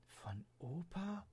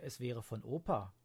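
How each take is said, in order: First: Soft, slow, high puzzled question; quietly puzzled girl asking back; soft high puzzled rise; wondering. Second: Said in the usual way. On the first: Acted. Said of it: "wunderte sich Leonie".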